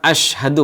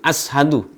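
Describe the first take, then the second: First: The consonant after the first vowel is sh. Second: The consonant after the first vowel is s. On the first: I bear witness. The speaker calls it right. "bukan kalimat asyhadu" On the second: It no longer means I bear witness. The speaker calls it wrong. "mengganti shin dengan sin"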